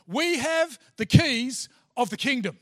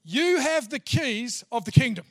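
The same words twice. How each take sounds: First: "We" punched loud and falling, rest steady; stress on WE. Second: "You" hit loud, pointing at the listener, then falling; stress on YOU. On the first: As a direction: lean hard on "We" and let the line drop. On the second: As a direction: land on "You" as if pointing at each one. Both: Shown as a demonstration. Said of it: "I'm not sure you're getting this yet".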